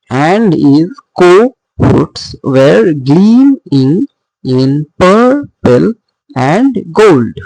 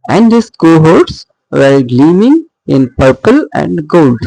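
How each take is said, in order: First: Slow, broken into beats, stressing "gleaming", "purple" and "gold"; scanned anapaestic stresses. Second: Said in the usual way. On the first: Shown as a demonstration. Teacher scanning anapaestic tetrameter, slow with marked stresses. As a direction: stretch each stressed beat, pausing before "in purple" and "and gold". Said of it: "unstressed, unstressed, stressed". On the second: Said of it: "so anapaestic, one, two, unstressed".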